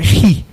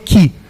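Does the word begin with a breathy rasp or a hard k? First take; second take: breathy rasp; hard k. First: It begins with a breathy throat rasp. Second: It begins with a hard k sound. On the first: The speaker calls it right. "a pronúncia é como se fosse aquele ish do alemão" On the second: The speaker calls it wrong. "algumas pessoas falam, chamam de ki"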